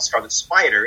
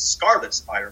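First: The stress falls on the second word. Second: The stress falls on the first word. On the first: The speaker calls it wrong. "It's not Scarlet Spider" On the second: The speaker calls it right. "the emphasis is on the first word"

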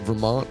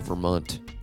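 First: The last syllable has its usual 'mont' vowel. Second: The last syllable rhymes with 'hunt', sounding 'munt'.

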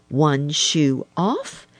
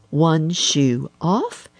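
No difference in how they are said.

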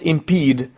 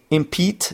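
First: The word ends with a D sound. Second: The word ends with a T sound. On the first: The speaker calls it right. "what I meant was impede" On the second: The speaker calls it wrong. "Did I say impede?"

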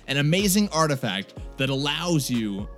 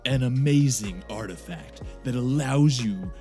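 First: It is read in a plain, everyday voice. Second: It is read in a dramatic narrator voice.

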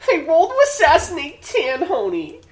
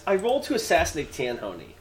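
First: It is read in a squeaky put-on character voice. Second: It is read in the speaker's ordinary voice.

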